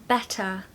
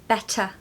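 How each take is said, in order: The two takes are said the same way.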